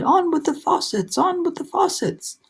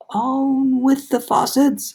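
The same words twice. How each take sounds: First: High ringing repeated command; shouted. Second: High, very slow booming far-off call; shouted command. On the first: Cloud man ordering the rain, high shout. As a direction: shout it down from the sky. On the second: Cloud man shouting down from the cloud, booming call. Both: A narrator's reading. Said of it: "it shouted".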